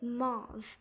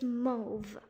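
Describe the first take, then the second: First: The vowel does not rhyme with grove. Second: The vowel rhymes with grove. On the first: The speaker calls it wrong. "it's not supposed to be mauve" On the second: The speaker calls it right. "so as in to rhyme with grove"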